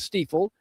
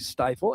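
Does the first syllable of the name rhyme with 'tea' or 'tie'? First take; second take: tea; tie. First: The first syllable rhymes with 'tea'. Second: The first syllable rhymes with 'tie'. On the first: The speaker calls it right. "It is Stiefel" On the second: The speaker calls it wrong. "Some people still say stifle, and they're wrong"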